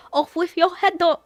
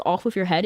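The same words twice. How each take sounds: First: Higher, cute imitation of the line; cute Riddle imitation. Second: Said in the usual way. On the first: Showing viewers how cute Riddle says it, higher. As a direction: coo it like an adorable little tyrant. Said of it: "is really cute". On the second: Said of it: "the way he says".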